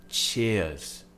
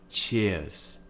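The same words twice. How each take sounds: The two takes are said the same way.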